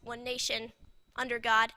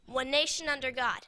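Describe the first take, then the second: First: There is a pause before 'under'. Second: It flows without a pause before 'under'. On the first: We are placed under the flag, not the nation under God. The speaker calls it wrong. "if you add a pause" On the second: The nation itself is under God. The speaker calls it right. "the correct way is to say it as"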